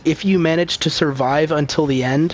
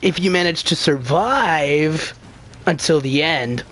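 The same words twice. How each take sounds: First: The tune stays open, leading on to more. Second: The tune falls to a close, sounding complete. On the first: The sentence continues into what follows. The speaker calls it right. "this is a continued sentence" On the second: The sentence is complete on its own. The speaker calls it wrong. "as if that's the end of the sentence"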